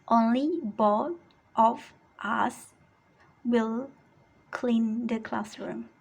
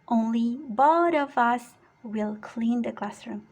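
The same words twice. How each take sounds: First: It is slow, with the words kept apart. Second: It is fast, with the words run together. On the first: "Tapi kalau mau slow, lambat juga tidak apa-apa" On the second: "jadi kalau disambung silahkan sambung"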